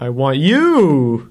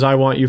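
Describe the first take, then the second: First: The title is said excitedly, like an exclamation. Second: The title is said flatly, without exclamation. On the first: The speaker calls it right. "With an exclamation mark" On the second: The speaker calls it wrong. "you didn't say that right"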